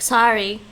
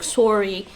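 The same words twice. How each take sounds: First: Sorry is said with an American accent. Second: Sorry is said with a Canadian accent. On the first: "The Americans say sorry like" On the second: "The Canadians would say sorry like"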